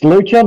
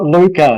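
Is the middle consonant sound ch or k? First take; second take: ch; k. First: The middle consonant is a ch sound. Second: The middle consonant is a k sound. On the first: The speaker calls it right. "It's Lucha" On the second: The speaker calls it wrong. "not Luca. ... I've been pronouncing it Luca for far too long"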